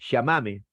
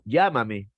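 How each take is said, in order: First: It is said with an Argentine accent. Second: It is said with a Peruvian accent. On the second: "Perú"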